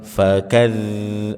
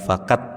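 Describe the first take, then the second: First: The final consonant flows with continuous air. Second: The final consonant stops abruptly without airflow. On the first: The speaker calls it right. "ada aliran nafasnya" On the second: The speaker calls it wrong. "bukan fakat"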